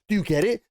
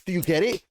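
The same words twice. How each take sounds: First: Higher, louder sarcastic taunt; escalating sarcastic needle; mocking, pushed harder. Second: Mocking question. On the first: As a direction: push the jab further up. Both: Real, not acted. Mocking the show's obviousness.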